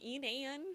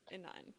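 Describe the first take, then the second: First: The name is said with a twang. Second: The name is said plainly, without a twang. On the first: The speaker calls it wrong. "I always put this twang to it" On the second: The speaker calls it right. "I'm pretty sure it's Inan"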